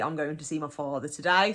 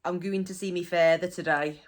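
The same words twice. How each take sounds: First: Said in the usual way. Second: FATHER as "fay-ther", GOING as "gooin". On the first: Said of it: "will be". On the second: Shown as a demonstration. Teacher gives dialect example, FATHER said "fay-ther". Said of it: "Further means father".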